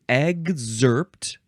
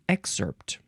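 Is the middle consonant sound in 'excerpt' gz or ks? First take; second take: gz; ks. First: The middle consonants sound like g and z. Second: The middle consonants sound like k and s. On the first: "with a G and a Z sound" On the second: "with a K and an S sound"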